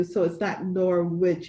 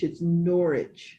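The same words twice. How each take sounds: First: "Norwich" said as NOR-witch, the W sounded; "Norwich" with a pronounced W and a hard tch ending. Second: "Norwich" said NOR-ij, no W, slowly; slow British "Norwich" said as NOR-ij; English pronunciation. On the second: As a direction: drop the W in "Norwich" and end it soft like "idge". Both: Shown as a demonstration. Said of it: "they don't pronounce the W".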